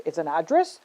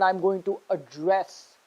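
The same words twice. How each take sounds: First: ADdress, stressed on the first syllable. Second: AdDRESS, stressed on the second syllable. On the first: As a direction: say "address" as the noun, punching "ad". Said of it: "stress on the first syllable". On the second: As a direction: say "address" as the verb, weight on "dress". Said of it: "stress on the second syllable". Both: Shown as a demonstration.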